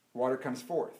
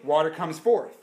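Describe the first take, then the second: First: Much softer, lower repeat; hushed echo. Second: Said in the usual way. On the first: Acted. Preacher repeating softly that water comes forth. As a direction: let it sink in quietly.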